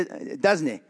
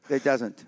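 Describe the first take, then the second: First: It is said in a Scottish accent. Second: It is said in his usual accent.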